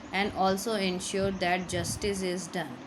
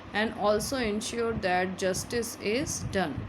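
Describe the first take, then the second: Both takes have the same delivery.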